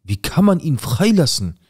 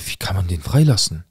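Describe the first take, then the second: First: Outraged. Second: Said in the usual way. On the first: Retold or imitated. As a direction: hurl the question in disbelief. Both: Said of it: "ich bin durchgedreht".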